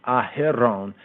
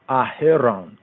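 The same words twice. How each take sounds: The two takes are said the same way.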